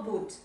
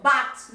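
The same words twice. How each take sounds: First: "but" said like "boot", at normal volume; wrong "but" pronunciation. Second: Loud, isolated "but" with an open vowel, not "boot"; correct "but" pronunciation. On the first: Teacher shows the mistake to avoid, "but" as "boot". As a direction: give "but" the oo of "boots" as the mistake. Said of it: "no but". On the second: Teacher corrects Bianca's word, loud clear "but". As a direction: punch out "but" as a model word. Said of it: "ojo con la pronunciación". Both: Shown as a demonstration.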